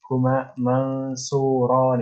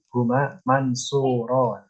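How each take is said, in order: First: The n is hidden into a nasalized vowel. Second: The n is pronounced as a plain consonant. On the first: It follows Quran recitation rules. "Nggak harus dibaca mansurun. Huma mansuron itu nggak harus" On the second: It is ordinary Arabic speech. "Biasa aja"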